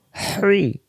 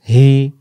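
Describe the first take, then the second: First: "হ্রি" as whooshing pharyngeal h, no r; hissing throaty hi. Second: "হি" with an open h; easy, unsqueezed "হি"; plain hi. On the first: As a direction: squeeze the breath on "হ্রি". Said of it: "শো শো আওয়াজে". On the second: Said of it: "দুই অক্ষর দুই রকম উচ্চারণ". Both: Shown as a demonstration.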